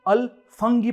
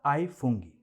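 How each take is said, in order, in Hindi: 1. पहला शब्द 'al' की तरह कहा जाता है। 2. पहला शब्द 'ai' की तरह कहा जाता है। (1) "इसे अल फंगी प्रोनाउंस करते हैं" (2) "मगर असल में इसे आई कहते हैं"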